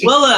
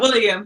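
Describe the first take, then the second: First: The name ends with a plain 'lem' sound. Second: The name ends with a 'lyum' sound. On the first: The speaker calls it right. "Willem, not William" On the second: The speaker calls it wrong. "not William"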